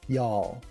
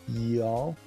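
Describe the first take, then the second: Both takes have the same delivery.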